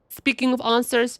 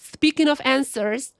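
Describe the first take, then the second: First: The vowels sound British, with a broad A. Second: The vowels sound American, with a flat A. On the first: "That was like the most British I could have said" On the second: "should I force myself to be like"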